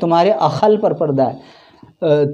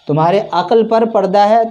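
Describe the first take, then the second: First: The word 'akl' is said with a kh sound. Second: The word 'akl' is said with a plain k. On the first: This is the Dakhni Urdu form. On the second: This is the standard Urdu form.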